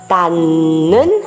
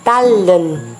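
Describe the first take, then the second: First: The middle consonant is a nasal N sound. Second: The middle consonant is a liquid L sound. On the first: The speaker calls it wrong. "a gente nasaliza, será? Não" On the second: The speaker calls it right. "Nós vamos liquidizar, esse som vai ficar com um L"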